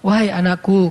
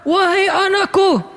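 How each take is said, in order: First: It is said in a calm, gentle tone. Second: It is said in a harsh, forceful tone. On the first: A loving address to a child. The speaker calls it right. "Kayak misalnya Nabi nyampein gini" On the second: It seems as if the speaker is scolding. The speaker calls it wrong. "Pas dibaca sama khatib di atas mimbar"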